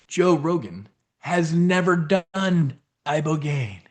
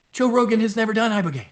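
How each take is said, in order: First: Slow, lightly presidential-sounding delivery; Donald Trump. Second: Said in the usual way. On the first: Real, not acted. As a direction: draw it out, a hint of a famous politician. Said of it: "I sounded like Trump". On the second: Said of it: "But anyway".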